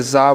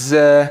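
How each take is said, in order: First: যা with an open aa vowel, short z; wrong open za. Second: জ্যা with long buzzing z and fronted vowel; buzzy za. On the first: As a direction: say যা quickly with a broad aa. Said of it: "না, ওরকম না". (ঝাঁঝ ছাড়া খোলা আ দিয়ে যা) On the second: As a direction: draw out the buzz into জ্যা. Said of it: "এরকম". (ঝাঁঝালো করে টেনে জ্যা) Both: Shown as a demonstration.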